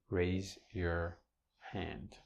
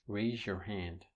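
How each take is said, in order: First: Said slowly, with raise and your kept apart. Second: Said fast, with raise and your merged together. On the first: "If I enunciate it, speak it slowly" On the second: "if you speak fast in English"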